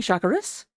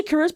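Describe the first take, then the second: First: "Shakuras" with stress on the first syllable; preferred pronunciation. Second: "Shakuras" with stress on the second syllable; official pronunciation. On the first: Caster admitting his favorite reading, first-syllable stress on "Shakuras". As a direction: say SHAK-uras for "Shakuras". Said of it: "but I like saying Shakuras". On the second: Caster correcting the team name, second-syllable stress on "Shakuras". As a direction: say sha-KUR-as for "Shakuras". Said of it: "It's actually Shakuras". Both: Shown as a demonstration.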